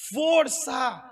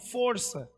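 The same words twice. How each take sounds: First: It is said very loudly, like a shout. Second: It is said at normal, quieter volume.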